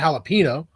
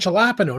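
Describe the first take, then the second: First: The first letter is said as an H sound. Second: The first letter is said as a J sound. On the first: The speaker calls it right. "the J is silent" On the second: The speaker calls it wrong. "but I want jalapeno"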